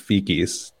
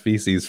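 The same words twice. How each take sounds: First: The middle consonant is a hard K sound. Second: The middle consonant is a soft S sound. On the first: The speaker calls it wrong. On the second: The speaker calls it right.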